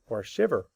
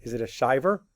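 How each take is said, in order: First: Shiver with a short i; correct short i. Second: Shiver with a long eye sound; wrong long i. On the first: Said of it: "You shiver". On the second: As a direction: say "shiver" as "shyver", wrong on purpose. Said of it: "where do I break it". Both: Shown as a demonstration.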